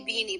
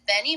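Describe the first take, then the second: First: The first vowel is a long 'ee' sound. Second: The first vowel is a short 'e' sound. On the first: The speaker calls it wrong. "I always say Beanie" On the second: The speaker calls it right. "but it's Benny Mac"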